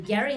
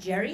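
First: The name begins with a hard g sound. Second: The name begins with a j sound. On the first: This is how the man's name was really said. The speaker calls it right. "He's actually Gerry" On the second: This is how people commonly say the name. The speaker calls it wrong. "not Jerry"

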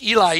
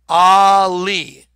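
First: The word begins with an 'ee' sound. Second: The word begins with an 'ah' sound. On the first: The speaker calls it wrong. "it looks like Eli" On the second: The speaker calls it right. "look how it's pronounced"

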